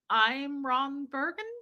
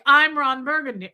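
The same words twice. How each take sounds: First: The voice rises at the end. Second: The voice falls at the end.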